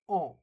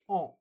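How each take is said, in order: No difference in how they are said.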